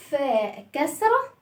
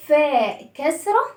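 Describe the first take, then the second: First: "فاء كسرة" drawn out very slowly; slower drill. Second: "فاء كسرة" spoken slowly; slow drill. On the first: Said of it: "repeated slower". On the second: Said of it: "teacher drills the name". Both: Shown as a demonstration.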